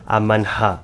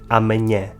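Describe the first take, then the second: First: The h is breathed out after the n. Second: The n and h merge into a ny sound. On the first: The speaker calls it wrong. "pronunciá-lo como se pronuncia em inglês e alemão" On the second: The speaker calls it right. "o N e o H juntos formam o som nhe"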